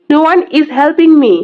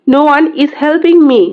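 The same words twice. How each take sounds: The two takes are said the same way.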